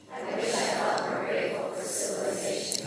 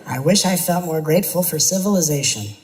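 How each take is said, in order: First: Breathy whispered repeat. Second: Said in the usual way. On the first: Shown as a demonstration. Teacher repeating it silently to the audience, whispered. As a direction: whisper it to yourself. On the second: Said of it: "Try this out loud".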